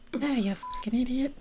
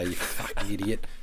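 First: It is said in a Mrs. Doubtfire-like voice. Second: It is said in his normal voice.

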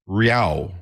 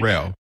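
First: The first syllable sounds like 'ree'. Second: The first syllable sounds like 'ray'. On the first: The speaker calls it wrong. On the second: The speaker calls it right.

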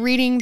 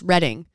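First: The first syllable sounds like 'reed'. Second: The first syllable sounds like 'red'. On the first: The name is read the way it is spelt. The speaker calls it wrong. "you should just keep pronouncing it Reading. Have everyone correct you" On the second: This is how the locals say the town's name. The speaker calls it right. "It's pronounced Redding"

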